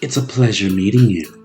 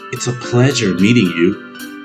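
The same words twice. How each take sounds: First: It is said in a deeper put-on character voice. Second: It is said in a plain, natural voice.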